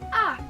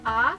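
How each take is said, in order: First: The pitch falls sharply from high to low. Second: The pitch rises steadily from mid to high. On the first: "kayak orang bentak, turun ke bawah" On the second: "kalau yang tiorsheng kan naik"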